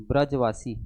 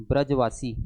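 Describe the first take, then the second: The two takes are said the same way.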